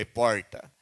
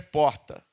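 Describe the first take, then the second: First: It is said in a countryside interior accent. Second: It is said in a Rio de Janeiro accent.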